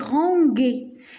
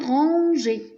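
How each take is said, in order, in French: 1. Le g se prononce comme un g dur. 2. Le g se prononce comme un j doux. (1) "لو كان نلصقها مباشرة تولي لي غونغي لأنه جي devant le A يعطيني كا" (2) "نزيدلو لو أو باش يعطيني غونجي"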